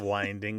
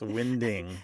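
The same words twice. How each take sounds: First: The i is long, as in 'wine'. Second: The i is short, as in 'wind'. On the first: It means turning or twisting, the usual verb. The speaker calls it wrong. "It's not winding" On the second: It means the wind is blowing. The speaker calls it right. "it's winding. The wind"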